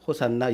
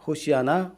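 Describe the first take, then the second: First: It is said as three syllables, ho-san-na. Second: It is said as four syllables, ho-si-a-na. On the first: This is the transliterated form. "소리 나는 대로 적은 것이 호산나" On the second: This is the original form of the word. "히브리 말에서 호시아 나"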